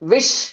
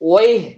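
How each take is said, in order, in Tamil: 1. இது 'wish' என்று சொல்லப்படுகிறது, எகிப்திய பாணியில். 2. இது 'wayh' என்று சொல்லப்படுகிறது, குவைத்தி பாணியில். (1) "ஒரு எஜிப்சியனா இருந்தா விஷ்" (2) "ஒரு குவைத்தியா இருந்தா ஒய்"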